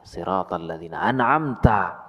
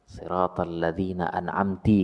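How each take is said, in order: First: The last word ends with an 'a' vowel. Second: The last word ends with an 'i' vowel. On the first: The speaker calls it right. "diperbaiki saja" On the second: The speaker calls it wrong. "oh ini salah"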